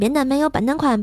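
It is spoken in Tianjin dialect. "天津话给大家说一遍哈"

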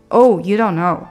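The voice falls at the end. It is a plain statement. "本来我们说肯定句应该是"

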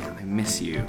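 It is said quietly in a sad, dejected tone. The speaker feels dejected about missing someone. "The second sentence you could say quietly"

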